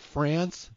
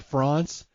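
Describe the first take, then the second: First: France is said with an American pronunciation. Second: France is said with a French pronunciation. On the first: The speaker calls it wrong. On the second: The speaker calls it right.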